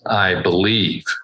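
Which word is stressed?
believe. The stress is on "believe".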